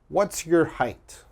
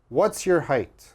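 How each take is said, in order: First: It is said at a normal, unhurried speed. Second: It is said very quickly.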